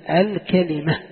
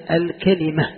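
The two takes are said the same way.

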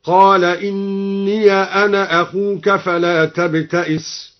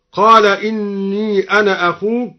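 First: Slow chant, "إني" said inniya; open ya. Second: Said in the usual way. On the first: Shown as a demonstration. Reciter demonstrates al-Duri's reading, "إني" as inniya. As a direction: recite slowly, ending "إني" in -ya. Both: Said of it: "فتح الياء وصلا".

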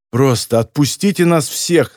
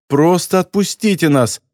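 First: Said in the usual way. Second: Higher-pitched, pleading tone; plaintive. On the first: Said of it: "заявила девушка". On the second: A narrator's reading. Captive girl begs the captors again, plaintive. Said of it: "жалобно повторила она".

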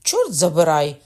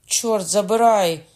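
First: Loud angry oath through gritted teeth; angry curse through teeth. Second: Loud, slow, drawn-out oath; slow loud curse. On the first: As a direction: snarl in pain and rage. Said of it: "крикнув він, заскриготавши зубами". (гнівний вигук крізь зуби) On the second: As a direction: bellow the curse at half speed. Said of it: "скрикнув Кокона". (повільний гучний вигук) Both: A narrator's reading.

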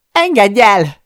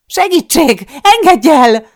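First: Loud, high-pitched desperate yell. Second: Very high, very loud scream for help; full-throated scream. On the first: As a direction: yell it out, fighting to get free. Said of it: "üvöltöm". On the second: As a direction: scream as hard as your throat allows. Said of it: "Sikoltok, ahogy a torkomon kifér". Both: A narrator's reading.

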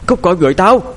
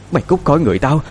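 First: High, loud deranged scream; frenzied woman driving something away; crazed shout. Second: High, possessed-sounding threat; high mad woman's demand; deranged demand. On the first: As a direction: scream it out as if possessed. Possessed woman's demand escalates. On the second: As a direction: order the spirit out, crazed but not yet shouting. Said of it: "miệng bà ta lại lẩm bẩm". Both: A narrator's reading.

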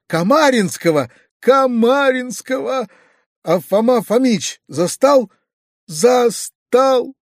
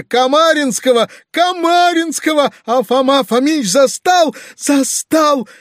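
First: High, drawn-out tearful wail; sobbing wail. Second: Very high, loud bawling; sobbing wail. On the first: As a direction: wail each phrase slowly, pitch climbing. (протяжно, плаксиво) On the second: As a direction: bawl every phrase in a shrieking lament. (громко, с плачем) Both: A narrator's reading. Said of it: "всхлипывая".

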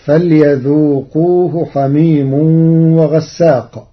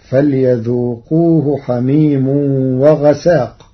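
First: وغساق with doubled sīn, ghassāq; وغساق with shadda on sīn; Hafs reading. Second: وغساق with light sīn, ghasāq; وغساق without shadda; Warsh reading. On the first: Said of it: "قرأ ورش كلمة وغساق". (وغساق بالتشديد) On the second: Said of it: "بتخفيف السين". (وغساق بتخفيف السين) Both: Shown as a demonstration.

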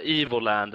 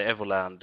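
First: Evoland said "EE-vo-land", long ee first; English-style pronunciation. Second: Evoland said "EV-o-land", short e first; alternative pronunciation. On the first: Guest unsure of the game's name, Evoland as "EE-vo-land". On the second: Guest offering another reading, Evoland as "EV-o-land". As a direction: open Evoland with an "eh" sound. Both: Shown as a demonstration. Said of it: "hur man nu ska uttala det".

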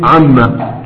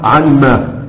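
First: عما said as one word, doubled m; fuse it into "amma" for عما; contracted form. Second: عن ما slowly as two separate words; original uncontracted form. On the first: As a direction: say عما joined up, no n heard. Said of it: "هتروح الألف حقها". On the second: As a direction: sound the n in عن, then ما apart. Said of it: "أصلها عن ما". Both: Shown as a demonstration.

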